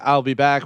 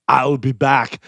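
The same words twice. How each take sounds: First: It is said offhandedly, with little force. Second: It is said forcefully, hitting the words hard. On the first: The speaker calls it wrong. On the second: The speaker calls it right.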